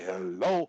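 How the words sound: The pitch starts low and goes high. "low high"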